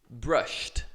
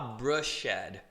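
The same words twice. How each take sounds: First: The ending is a short T sound. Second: The ending is not a short T sound. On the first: The speaker calls it right. "como se fosse um T" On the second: The speaker calls it wrong. "Eu não vou falar brushed"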